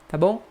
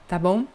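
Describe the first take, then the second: The two takes are said the same way.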